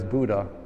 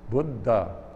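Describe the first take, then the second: First: It is said with the usual English pronunciation. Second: It is said with the Sanskrit pronunciation. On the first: The speaker calls it wrong. "It's mispronounced in English usually as" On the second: The speaker calls it right. "The Sanskrit word for awake is Buddha"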